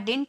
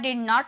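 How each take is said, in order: First: The middle d is dropped, giving one short syllable. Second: It is said as two full separate words. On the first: "हम इसे डिंट भी बोल सकते हैं" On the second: "बिना contract किए बोलते हो ... तो फ्लुएंसी नहीं आती"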